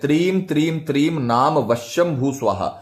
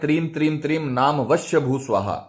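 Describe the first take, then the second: First: The word before bhu ends in an m sound. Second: The word before bhu ends without an m sound. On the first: The speaker calls it right. "मंत्र का जो उच्चारण है वो भी आपको सही रखना है" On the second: The speaker calls it wrong. "कई लोग बोलते हैं ... उससे गड़बड़ हो जाएगी"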